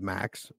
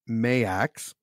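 First: The name is said as one short syllable. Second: The name is said as two syllables. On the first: The speaker calls it wrong. "I thought it was Max" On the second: The speaker calls it right. "It's Mayax"

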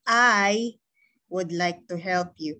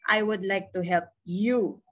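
First: The word 'I' is said with stress. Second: The word 'you' is said with stress. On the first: "kung ilalagay ko naman yung stress dito sa I" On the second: "Kung nilagay ko naman dito sa you"

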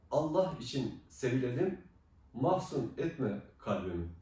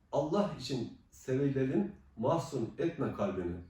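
No difference in how they are said.

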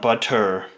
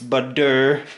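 First: The middle consonant sounds like a crisp T. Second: The middle consonant sounds like a soft D. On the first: The speaker calls it wrong. "not two T's" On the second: The speaker calls it right. "Butter with the two D's"

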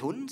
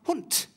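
First: The final consonant is a soft voiced d. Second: The final consonant is a hard voiceless t. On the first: The speaker calls it wrong. "aber wir sagen nicht Hund" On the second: The speaker calls it right. "sondern Hund. Und das ist die Auslautverhärtung"

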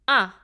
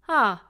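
First: The vowel starts with a hard glottal catch. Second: The vowel starts cleanly and balanced, without catch. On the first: "we will squeeze the vocal cords and say" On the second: "a clean and balanced ah vowel in between the ha and ah, like this"

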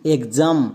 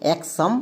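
First: The x is pronounced as gz. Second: The x is pronounced as ks. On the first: The speaker calls it right. "এক্সের জন্য গোয়ে বর্গীয় জ" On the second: The speaker calls it wrong. "ভুল করেও এক্সাম এরকম উচ্চারণ করব না"

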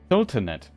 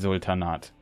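First: It is pronounced with English sounds. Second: It is pronounced with German sounds. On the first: "how is it pronounced in English?" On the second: "I would pronounce it in German"

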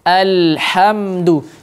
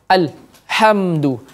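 First: The L sound flows briefly before the next sound. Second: The L sound is cut off abruptly. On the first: The speaker calls it right. "tidak terputus" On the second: The speaker calls it wrong. "Tidak kita baca alhamdu"

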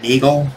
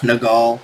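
First: The first vowel sounds like in bagel. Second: The first vowel sounds like in Nepal. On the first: "sounds too much like bagel" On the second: "as in Nepal"

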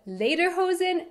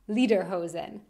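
First: The first syllable sounds like 'lay', as in leather. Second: The first syllable sounds like 'lee', as in Lieder. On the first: The word means leather pants. The speaker calls it right. "So Lederhosen" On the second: The word would mean song pants. The speaker calls it wrong. "not Lederhosen"

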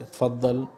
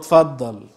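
First: The word sounds warm and welcoming. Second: The word sounds impatient and exasperated. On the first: Please sit down. "يعني اتفضل اقعد" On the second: Go ahead, you're the only one left to speak. "يعني خلاص ما فضلش غيرك اللي يتكلم"

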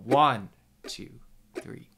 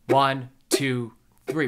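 First: The first count, one, is stressed. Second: All three counts are stressed evenly.

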